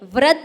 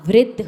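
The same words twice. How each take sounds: First: The r sound is said with an 'a' vowel. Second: The r sound is said with an 'i' vowel. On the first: The speaker calls it wrong. "नहीं होता" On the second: The speaker calls it right. "होता है"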